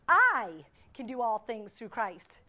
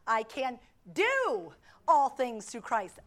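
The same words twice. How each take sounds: First: The stress falls on the word "I". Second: The stress falls on the word "do".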